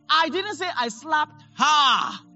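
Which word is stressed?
her. The stress falls on the last word, her. A different person was slapped. "I slapped someone else"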